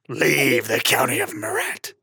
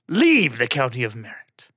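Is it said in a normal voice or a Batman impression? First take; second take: Batman impression; normal voice. First: It is read in a gravelly Batman voice. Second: It is read in the speaker's normal voice.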